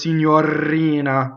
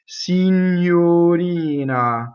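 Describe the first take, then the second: First: The R is rolled with several trills. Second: The R is a single quick flap. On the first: The speaker calls it wrong. "Or even worse, ... Rolling the R between vowels is also not an option" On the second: The speaker calls it right. "you have a flipped R"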